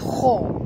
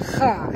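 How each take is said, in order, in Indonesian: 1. Bunyi kha itu berat dan tebal. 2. Bunyi kha itu ringan dan tipis. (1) "memang tebal kha" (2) "bukan kha"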